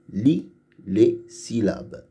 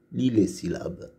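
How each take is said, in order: First: "Lis les syllabes" slowly, a pause after "Lis" and "les"; mots détachés. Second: Said in the usual way. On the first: Shown as a demonstration. Instruction word by word, then normally. (« Lis les syllabes » lentement, mot par mot)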